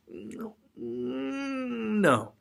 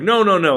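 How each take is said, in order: First: The refusal sounds softest and half-hearted. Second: The refusal sounds firm and forceful.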